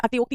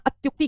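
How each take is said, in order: First: अतियोक्ति with "ti-yo" in the middle; अतियोक्ति with a separate ti and an o; wrong unjoined form. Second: अत्युक्ति with "tyu" in the middle; अत्युक्ति in three joined syllables; correct joined form. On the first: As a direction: say अतियोक्ति as "ati-yokti". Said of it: "अतियोक्ति नहीं कहलाता". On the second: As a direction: say अत्युक्ति as "atyukti". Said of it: "अत्युक्ति कहलाता है". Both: Shown as a demonstration.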